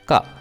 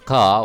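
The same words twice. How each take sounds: First: The vowel is kept short. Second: The vowel is held long. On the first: "as a short ka" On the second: "the first ka is pronounced as ka"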